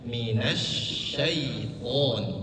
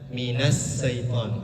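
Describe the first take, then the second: First: The word begins with an sh sound. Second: The word begins with a plain s sound. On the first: The speaker calls it right. "Yang betul adalah sya, minasya, sya, beda dengan sa" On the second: The speaker calls it wrong. "Ada yang membaca minas syaitan, ada yang membaca seperti itu"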